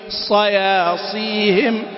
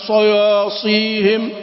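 First: The vowels after the emphatic consonant stay unrounded. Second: The vowels after the emphatic consonant sound rounded. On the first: The speaker calls it right. "هكذا" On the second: The speaker calls it wrong. "أما صياصيهم، لا"

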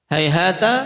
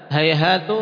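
First: The word ends with an a vowel. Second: The word ends with a u vowel.

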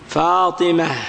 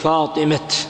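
First: The word ends with an h sound. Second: The word ends with a t sound. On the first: The speaker calls it right. "تقف بالهاء" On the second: The speaker calls it wrong. "وقل وشد أن تقف بالتاء"

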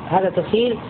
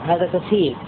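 No difference in how they are said.

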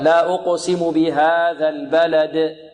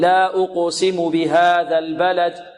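First: The final d has a strong echoing bounce. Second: The final d has a weak echoing bounce. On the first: The speaker calls it right. "هكذا" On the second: The speaker calls it wrong. "يأتي بها ضعيفة"

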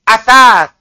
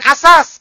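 First: The tongue tip touches the upper teeth: th. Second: The consonant is a plain hissing s sound. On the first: It means furniture. The speaker calls it right. "Ujung lidah, ujung gigi atas" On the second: It means foundation. The speaker calls it wrong. "Bukan asas. Karena asas fondasi"

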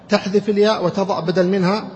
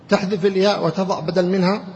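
Both takes have the same delivery.

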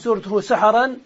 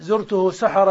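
First: The last word ends with an n sound. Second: The last word ends without an n sound. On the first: It was some unspecified dawn. "فإذا نونت" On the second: It was the dawn of this past night. "وإذا منعت من الصرف"

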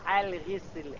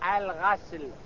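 First: The first vowel is i. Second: The first vowel is a. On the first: "بالكسر" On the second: "بالفتح"

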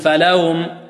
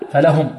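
First: The h sound is weak and faint. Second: The h sound is clear and distinct. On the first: The speaker calls it wrong. "يأتي بالهاء ضعيفة" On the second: The speaker calls it right. "ونوضح الهاء هنا"

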